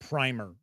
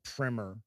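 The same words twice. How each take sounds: First: The first vowel sounds like in 'primary'. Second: The first vowel differs from that in 'primary'. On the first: This is how most people in the United States say it. "most people will pronounce it primer, like primary" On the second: This is how people outside the United States say it. "outside the U S, I always hear it called primer"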